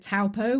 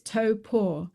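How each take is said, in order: First: The name does not sound like 'toe paw'. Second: The name sounds like 'toe' plus 'paw'. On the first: This is how newcomers first said it. The speaker calls it wrong. "we said Taupo. We thought it was pronounced Taupo" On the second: This is how a local said it should be. The speaker calls it right. "just remember your big toe and the cat's paw, so it's toe paw"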